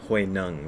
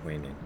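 First: The name is said with Chinese-like sounds. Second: The name is said with English-like sounds. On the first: The speaker calls it right. "I should pronounce it correctly" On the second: The speaker calls it wrong. "rather than"

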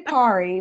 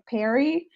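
First: It uses the speaker's own regional vowel. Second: It uses the vowel typical of Ohio speakers. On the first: "I say PARI" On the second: "everybody in Ohio says like PERI"

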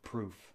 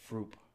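First: The word begins with a P sound. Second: The word begins with an F sound. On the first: This is the usual pronunciation. The speaker calls it right. "for proof" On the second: This is how someone else mispronounced it. The speaker calls it wrong. "he would always say "froop""

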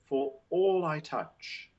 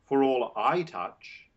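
First: The word all carries the stress. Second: The word I carries the stress. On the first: The focus is on every single thing touched. The speaker calls it right. "So that emphasizes all, every single thing" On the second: The focus is on who does the touching. The speaker calls it wrong. "not the subject I"

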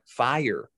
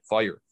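First: Fire is said with a full, standard vowel. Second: Fire is said shortened, Pennsylvania-style.

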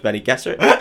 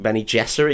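First: The G is hard, like in go. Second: The G is soft, like a J.

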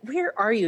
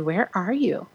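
First: It is said in an angry, scolding tone. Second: It is said in a gentle, longing tone.

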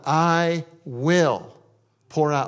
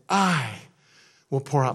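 First: The word "will" carries the main stress. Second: The word "I" carries the main stress. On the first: It is certain to happen. "It is going to happen" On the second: God alone is the one who does it. "Who's going to do it? God"

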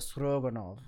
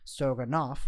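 First: The name ends with a V sound. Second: The name ends with an F sound. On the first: This is the original Russian form of the name. The speaker calls it right. "In the actual Russian pronunciation ... So stroganov with the V" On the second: This is the French form of the name. The speaker calls it wrong. "which is the almost the bastardization of the name in French"

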